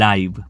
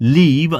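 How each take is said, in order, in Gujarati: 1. સ્વર 'eye' ડિફથોંગ છે. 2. સ્વર એક ટૂંકો 'i' અવાજ છે. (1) "બીજો પણ એક ઉચ્ચાર છે આનો, એ છે લાઈવ" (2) "આનો ઉચ્ચાર એક થાય છે લીવ"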